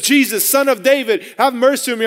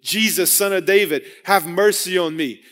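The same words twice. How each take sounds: First: Light shout. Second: Said in the usual way. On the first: Retold or imitated. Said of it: "as he shouts it". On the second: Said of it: "again, mercy".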